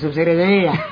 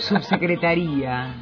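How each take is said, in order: First: The word is pronounced slurred and stumbling. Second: The word is pronounced clearly and cleanly. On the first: The speaker calls it wrong. "Como si me hubiera tomado 4 vinos tintos de baja calidad" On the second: The speaker calls it right. "Si la digo solita me sale"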